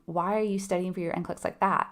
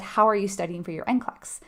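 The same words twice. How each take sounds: First: Judgy. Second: Said in the usual way. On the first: Shown as a demonstration. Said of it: "That feels judgy". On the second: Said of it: "but if I were to ask you".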